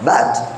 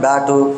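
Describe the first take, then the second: First: The word ends cleanly on the 't' consonant. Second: The word ends with an extra 'u' vowel. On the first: The speaker calls it right. "Pronounce it properly... ఇట్లా" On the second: The speaker calls it wrong. "We have mother tongue influence... బ్యాటు క్యాటు అని అంటాం"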